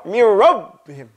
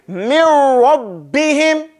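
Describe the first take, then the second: First: Mir rabbihim rushed, b swallowed; wrong way. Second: Slow Mir rabbihim with doubled b; correct recitation. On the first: Teacher mocking the wrong version. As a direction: say Mir rabbihim too fast, no shidda. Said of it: "you can't go". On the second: Teacher reciting the correct way, slow. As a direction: draw out Mir rabbihim, b pressed and released. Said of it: "So you have to say". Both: Shown as a demonstration.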